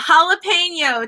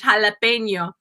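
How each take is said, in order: First: It is said with an American accent. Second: It is said with a Spanish accent.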